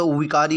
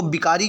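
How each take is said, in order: First: "विकारी" begun with v, as "vikari"; correct initial consonant. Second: "विकारी" begun with b, as "bikari"; wrong initial consonant. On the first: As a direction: say विकारी with a clear v first. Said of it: "विकारी होता है". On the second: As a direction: say विकारी with a b sound first. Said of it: "ये गलत लिखा हुआ". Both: Shown as a demonstration.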